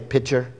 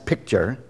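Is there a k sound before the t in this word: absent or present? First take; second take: absent; present. First: The word is said without a k sound. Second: The word is said with a k sound. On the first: The speaker calls it wrong. "I say pitcher" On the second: The speaker calls it right. "I do understand it's picture or pick, P-I-C"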